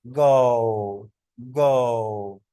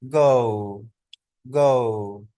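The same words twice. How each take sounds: First: American गो with a rounded oh; drawn-out गो starting rounded; long falling गो in the American way; American pronunciation. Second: British गो with a gliding vowel, guh-oo; drawn-out गो closing to oo; long falling गो in the British way; British pronunciation. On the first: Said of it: "और American बोलेंगे". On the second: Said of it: "British इसको कैसे बोलेंगे". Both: Shown as a demonstration.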